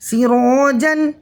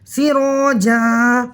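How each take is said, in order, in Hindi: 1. शब्द का अंत न ध्वनि से होता है। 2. शब्द का अंत दीर्घ स्वर से होता है। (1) "जीम दो ज़बर जन" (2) "दो ज़बर की तनवीन अलिफ मद्दा से बदल रही है"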